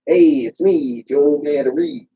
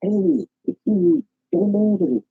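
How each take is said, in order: First: Lightly voiced comedian catchphrase; a hint of Joe Matarese's greeting; Joe Matarese impression. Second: Different inflection. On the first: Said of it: "Did I just hear Joe Matarese?". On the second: Shown as a demonstration. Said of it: "different inflections".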